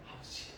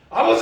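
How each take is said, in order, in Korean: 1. 이 단어는 작게, 거의 속삭이듯 말하는 거예요. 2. 이 단어는 크게 부르는 거예요. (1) "그 다음 거는 작게 부르잖아요" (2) "큰 소리로 먼저 부르고"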